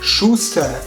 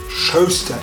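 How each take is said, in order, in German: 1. Es wird auf Standarddeutsch gesprochen. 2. Es wird mit einem bayerischen Vokal gesprochen.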